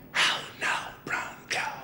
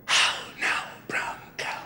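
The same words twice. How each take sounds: First: Breathy whispered test phrase from the doctor; quiet whisper, just for a listener to catch; doctor's whisper. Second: Whispering the test phrase back to the doctor; whispered back. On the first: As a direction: whisper it across the room like a hearing test. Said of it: "I'm gonna whisper something to you". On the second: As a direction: whisper it back just as softly. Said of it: "I want you to repeat it". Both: Retold or imitated.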